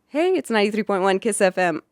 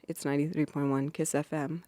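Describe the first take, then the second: First: It is said with lively, easy energy. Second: It is said flatly, with little energy.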